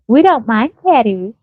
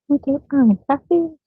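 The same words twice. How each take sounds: First: It is said in a plain, ordinary voice. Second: It is said in an imitated, put-on voice. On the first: "She didn't say" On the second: "That's the voice she said it in. Listen"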